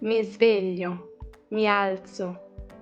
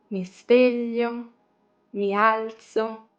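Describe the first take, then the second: First: The phrase is said at a faster pace. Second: The phrase is said at a slower pace.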